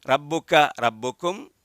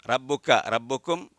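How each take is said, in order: Both takes have the same delivery.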